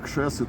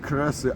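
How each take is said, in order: First: The word begins with a sh sound after k. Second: The word begins with a rolled r after k. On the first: "а кшеси, тому як говорять на Віленщині" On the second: "я говорю не креси"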